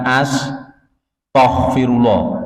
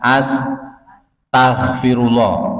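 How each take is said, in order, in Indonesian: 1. Suku kata kedua terdengar seperti 'to'. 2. Suku kata kedua terdengar seperti 'ta'. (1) "bukan huruf to" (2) "pakai huruf ta"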